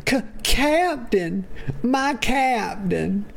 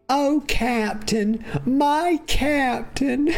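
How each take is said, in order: First: Stammered, higher and slow, mock adoring; hammed-up devoted sidekick. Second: Much higher and slow, breaking into a laugh-cry; mock weeping tribute, milk every word; over-the-top devoted sidekick. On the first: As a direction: stretch it out like a dramatic hammy tribute. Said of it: "Galen says". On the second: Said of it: "He didn't say that, y'all. I added it".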